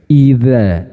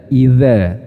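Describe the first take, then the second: No difference in how they are said.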